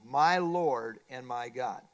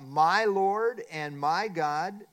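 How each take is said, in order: First: Slow, lower and inward; a slow, low, personal prayer. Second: Slow, louder cry of awe; a slow, loud exclamation of worship. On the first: Shown as a demonstration. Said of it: "it must be personal". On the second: A narrator's reading. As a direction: stretch each word out like a confession of faith. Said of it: "as Thomas cries out".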